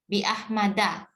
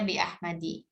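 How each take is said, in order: First: The last word ends with an 'a' vowel. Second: The last word ends with an 'i' vowel. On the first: The speaker calls it right. "yang betul adalah bi ahmada" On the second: The speaker calls it wrong. "Nah ini sering dibaca bi ahmadi"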